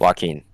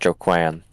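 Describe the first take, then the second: First: The name does not begin with 'Joe'. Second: The name begins with 'Joe'. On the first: The speaker calls it right. "You pronounce it Joaquin" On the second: The speaker calls it wrong. "obviously that's not how you pronounce it"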